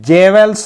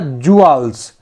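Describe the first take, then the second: First: The word begins with 'jeh' and has a v. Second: The word begins with 'joo' and has no v. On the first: The speaker calls it wrong. "इसको जेवेल्स नहीं पढ़ेंगे ना" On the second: The speaker calls it right. "सही pronounce क्या होगा"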